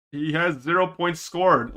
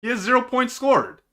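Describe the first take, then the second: First: Said in the usual way. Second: "zero" lifted high, hammered in; stress on zero. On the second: Real, not acted. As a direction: pitch up hard on "zero". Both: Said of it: "No, he didn't score".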